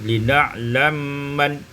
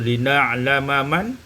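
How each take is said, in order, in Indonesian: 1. Dua bunyi m itu menyatu menjadi satu m yang panjang. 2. Dua bunyi m itu diucapkan terpisah.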